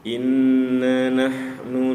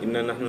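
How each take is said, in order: First: The doubled n is held for a moment. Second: The doubled n is rushed through quickly. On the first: The speaker calls it right. "nun tasdid itu mesti ditahan juga" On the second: The speaker calls it wrong. "dicepetin begitu"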